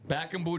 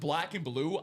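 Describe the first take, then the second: First: The L sounds are dropped from both words. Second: The L sounds are clearly pronounced. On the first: The speaker calls it wrong. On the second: The speaker calls it right.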